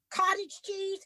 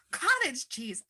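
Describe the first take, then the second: First: "Cottage" hit high and incredulous; cottage stressed in disbelief. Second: "Cottage" said higher with falling annoyance; cottage stressed indignantly. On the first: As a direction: stress "Cottage" as a baffled question. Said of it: "I say to the guy". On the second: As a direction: punch "Cottage" like a complaint. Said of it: "the East Coaster yelling". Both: Retold or imitated.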